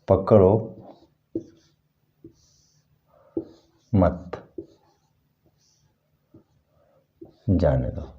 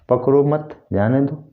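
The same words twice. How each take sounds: First: The pause comes right after पकड़ो. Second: The pause comes right after मत.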